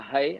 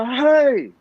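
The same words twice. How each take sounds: First: Soft calm version. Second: Put-on high, loud sharp "Hai." yelled at the child; retold shout. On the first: Retold or imitated. Father showing how he should have said it, softly. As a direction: murmur "Hai." softly, no force. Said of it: "Elok saya kata". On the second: Father shouting "Hai." at his crying toddler, loud. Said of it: "Saya kata lagu tu".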